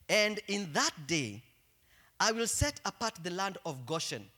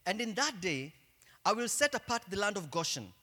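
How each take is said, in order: First: It is read slowly. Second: It is read fast.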